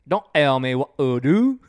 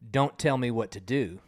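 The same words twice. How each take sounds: First: The T sounds are left out. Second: The T sounds are pronounced normally.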